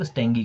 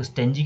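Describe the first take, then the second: First: स्टेंगी with a hard "g" sound. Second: स्टेंजी with a "j" sound; soft g. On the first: Teacher saying how others say it, स्टेंगी with hard g. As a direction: pronounce स्टेंगी with g as in "go". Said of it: "जी करते हैं कई लोग". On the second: Teacher saying how some people say it, स्टेंजी with soft g. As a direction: pronounce the g in स्टेंजी like j. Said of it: "जी को जॉ कहते हैं". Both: Shown as a demonstration.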